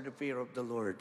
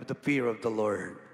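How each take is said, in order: First: Said in the usual way. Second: "the fear of the Lord" said louder with weight on "fear"; emphatic repeat. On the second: Shown as a demonstration. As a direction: drive home "the fear of the Lord" loudly. (mariing "the fear of the Lord") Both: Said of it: "Pag sabi mo, the fear of the Lord".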